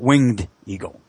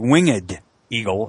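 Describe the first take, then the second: First: Winged is said in an everyday way. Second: Winged is said in an old-fashioned way. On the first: It is read the way it is spelled. The speaker calls it wrong. "and not winged eagle" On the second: The eagle's wings are unfurled. The speaker calls it right. "It should be winged eagle"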